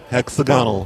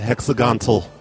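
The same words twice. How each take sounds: First: The word is said without a T sound. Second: The word is said with a T sound. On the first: The speaker calls it right. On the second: The speaker calls it wrong. "I thought there was a T in there"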